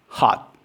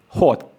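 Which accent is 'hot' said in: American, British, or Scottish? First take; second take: American; Scottish. First: It is said in an American accent. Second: It is said in a Scottish accent. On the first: "In American English, it's ah" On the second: "In Scottish English, it's o"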